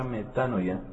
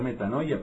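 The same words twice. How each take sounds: First: The stress falls on a less common syllable. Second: The stress falls on the commonly used syllable. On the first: The speaker calls it right. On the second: The speaker calls it wrong.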